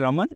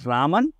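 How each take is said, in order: First: The first vowel is short, like 'ruh'. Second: The first vowel is long, like 'raam'. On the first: The speaker calls it wrong. "It's not CV रमन" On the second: The speaker calls it right. "It's रामन। ... राम ... and last में लगता है अन"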